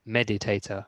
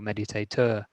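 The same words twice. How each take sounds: First: The stress is on the first syllable. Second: The stress is on a later syllable. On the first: The speaker calls it right. "the stress is at the beginning" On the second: The speaker calls it wrong. "you don't say meditator"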